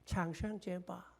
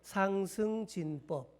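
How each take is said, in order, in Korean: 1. 중국어 음절로 읽습니다. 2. 한국어 음절로 읽습니다.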